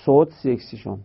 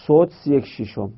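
Both takes have the same delivery.

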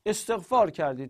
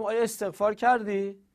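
First: Said in the usual way. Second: آیا استغفار کردی asked quickly, pitched higher; quick, raised questioning استغفار کردی; question tune. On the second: Shown as a demonstration.

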